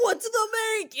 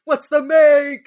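First: High mock old man yell cracking into a laugh; laughing grandpa yell; hammed-up grandpa yell. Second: Put-on high, loud, slow old man yelling; imitating a grandpa yell. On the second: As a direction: bark it like a grandpa. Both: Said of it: "grandpa yells".

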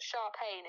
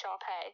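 First: Sharpayne with an N sound closing it; wrong name pronunciation. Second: Sharpay ending on an open "pay"; corrected name pronunciation. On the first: Correcting the friend's mistaken name, Sharpayne with a final N. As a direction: say Sharpayne, ending like "pain". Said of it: "Her name's not Sharpayne". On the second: Correcting the friend on the character's name, Sharpay without N. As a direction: say Sharpay with no final N. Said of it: "it's Sharpay". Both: Shown as a demonstration.

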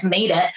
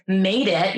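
First: Air quotes. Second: Said in the usual way. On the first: Shown as a demonstration. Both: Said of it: "air quotes, right?".

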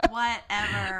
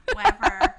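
First: "Whatever." laughed out with a rising end; laughing whatever. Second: A short, loud, fed-up "whatever."; loud dismissive whatever. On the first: Repeats dismissal, laughing. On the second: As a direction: bark "whatever." to brush her off. Annoyed dismissal after teasing. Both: Real, not acted.

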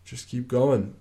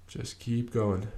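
First: Said in the usual way. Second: Repeated softly and slowly, easing off; softer, slower repeat. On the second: Shown as a demonstration. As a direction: say it again, quieter and drawn out.

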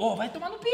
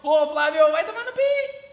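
First: "Ô, vai tomar no pi" at everyday volume with a lift at the end; intonation demo. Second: "Ô, Flávio" punched loud and high, "vai tomar no pi" rising to a held high "pi"; intonation demo. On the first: Showing how intonation changes an insult, casual unshouted version. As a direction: toss off "vai tomar no pi" without shouting, rising on "pi". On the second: Showing how intonation changes an insult, loud high call-out. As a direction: call the insult out loudly, climbing on "pi". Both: Shown as a demonstration. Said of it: "A entonação, ela muda".

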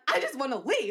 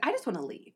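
First: Mildly insistent, slightly raised; acted-out plea, a touch more forceful; retold insistence. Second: Said in the usual way. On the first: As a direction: restate it with mock exasperation. Retold argument escalates, repeated plea.

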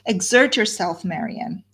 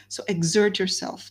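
First: A mildly raised, urgent "Exert yourself"; half-cried appeal to her sister; urgent plea. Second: Said in the usual way. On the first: Acted. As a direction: press her to pull herself together, voice lifted a little. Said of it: "she cried". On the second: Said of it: "So Eleanor says".

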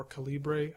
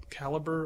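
First: "Calibre" stressed on LEE, ending in -bray; exotic-sounding "Calibre", three syllables: kuh-LEE-bray; exotic pronunciation. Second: "Calibre" stressed on the first syllable, ending in -ber; "Calibre" rhyming roughly with caliber; everyday pronunciation. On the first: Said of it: "it sounds a little exotic". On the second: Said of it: "I don't know how to say it". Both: Shown as a demonstration.

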